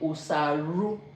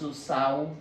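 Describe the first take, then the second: First: An r sound is pronounced inside the word. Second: No r sound is pronounced inside the word. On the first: The speaker calls it wrong. "We don't say usaru. No, it's wrong" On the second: The speaker calls it right. "It's usau"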